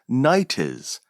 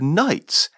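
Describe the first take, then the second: First: The word is said with two syllables. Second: The word is said with one syllable.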